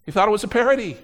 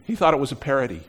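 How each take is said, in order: First: "parody" punched higher and louder; emphatic repeat. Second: Said in the usual way. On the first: Shown as a demonstration. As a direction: repeat it, leaning hard on "parody".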